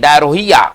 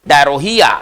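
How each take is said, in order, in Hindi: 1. इसे हर लिखे अक्षर के हिसाब से पढ़ा जाता है। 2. इसे हर लिखे अक्षर के हिसाब से पढ़ा जाता है।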